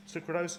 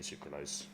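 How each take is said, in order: First: Higher, questioning the word "Sucralose?"; puzzled double-take. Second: Said in the usual way. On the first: Real, not acted. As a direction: catch your own slip on "Sucralose?". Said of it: "So sucralose is a fucking sweetener".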